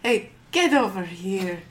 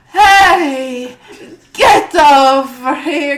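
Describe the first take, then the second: First: The call is said at a quiet, normal level. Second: The call is shouted with strong force. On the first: The speaker calls it wrong. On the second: The speaker calls it right.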